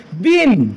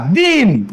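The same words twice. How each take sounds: First: दिन with a short i, meaning day; short vowel. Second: दिन with a long ee, as deen; दिन said as a drawn-out deen; long vowel. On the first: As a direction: keep the i in दिन brief. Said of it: "पहिली वेलांटी असेल तर ते दिवस". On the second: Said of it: "दुसरी वेलांटी असेल बघा". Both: Shown as a demonstration.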